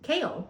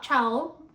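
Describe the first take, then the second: First: The name begins with a 'k' sound. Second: The name begins with a 'ch' sound. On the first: The speaker calls it right. "that sounds way better than Chow" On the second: The speaker calls it wrong. "So it's not Chow"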